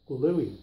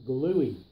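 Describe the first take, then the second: No difference in how they are said.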